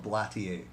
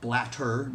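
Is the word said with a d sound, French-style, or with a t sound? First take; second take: French-style; t sound. First: The word ends with a French-style ending. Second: The middle consonant is a clear t sound. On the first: "maybe you pronounce it Blatier" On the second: "blatter, not bladder"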